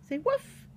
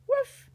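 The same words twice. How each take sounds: First: Prompting woof. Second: High, louder little woof; a bright yappy puppy bark. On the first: Shown as a demonstration. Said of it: "Can you bark one time?". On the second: Pretend. Reading to a child, playful high puppy woof. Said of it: "puppy barks one little bark".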